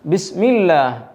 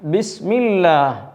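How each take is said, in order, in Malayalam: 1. L നേരിയതും മെലിഞ്ഞതുമാണ്. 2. L നേരിയതും മെലിഞ്ഞതുമാണ്.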